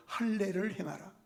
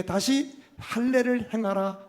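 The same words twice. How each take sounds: First: 할례를 행하라 said softly, falling at the end; a hushed, puzzled restatement of 할례를 행하라; quiet falling command. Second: 다시 할례를 행하라 spoken slowly, with weight on 다시; a deliberate, heavy divine command; slow solemn command. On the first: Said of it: "비상식적인 명령을 행하신 거예요". (할례를 행하라를 조용히 내려 말하기) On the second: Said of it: "여호와께서 여호수아에게 이르시되". (다시를 힘주어 천천히 명령하듯) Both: Shown as a demonstration.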